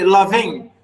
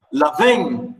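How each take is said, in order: First: Loving with the first syllable stressed; LO-ving, weight on LO and ving light. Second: Loving, LO stressed, ving unstressed. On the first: Teacher modelling the stress of loving for the student. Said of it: "stress and stress or unstressed stress". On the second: Teacher confirming the stress pattern to the student. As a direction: land on LO, let ving fall away. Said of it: "Yeah, loving". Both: Shown as a demonstration.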